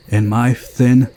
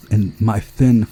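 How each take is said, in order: Both takes have the same delivery.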